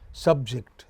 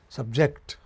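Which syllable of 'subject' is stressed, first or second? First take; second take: first; second. First: The stress is on the first syllable. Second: The stress is on the second syllable. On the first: It is used as a noun. "when it is noun, ... the stress is on the initial syllable" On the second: It is used as a verb. "Then the stress will go to the final syllable"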